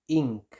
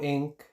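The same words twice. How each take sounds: First: "ink" con i cerrada, como "iink"; pronunciación recomendada. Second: "ink" con vocal abierta, como "enk"; pronunciación a evitar. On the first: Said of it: "ustedes lo digan como ink". ("ink" con vocal cerrada i) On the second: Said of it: "no ink". ("ink" con e en vez de i) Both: Shown as a demonstration.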